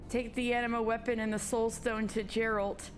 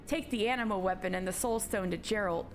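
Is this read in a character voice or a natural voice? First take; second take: natural voice; character voice. First: It is read in the speaker's ordinary voice. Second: It is read in a put-on character voice. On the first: The speaker calls it wrong. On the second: The speaker calls it right.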